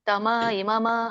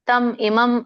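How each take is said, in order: First: Each word ends with a full vowel after m. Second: Each word ends on a bare m consonant. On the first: The speaker calls it wrong. "ಇಲ್ಲಿ ಮ ಅಂತ ಪೂರ್ಣ ಹೇಳ್ಬೇಡಿ. ತಮ ಇಮಮ ಇಲ್ಲ" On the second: The speaker calls it right. "ವ್ಯಂಜನ ಇದೆ"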